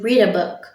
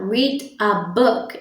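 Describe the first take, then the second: First: The article 'a' is nearly dropped. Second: The article 'a' is clearly pronounced. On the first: "eu não pronunciei esse artigo que tá aí no meio" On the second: "ao invés de eu falar read a book"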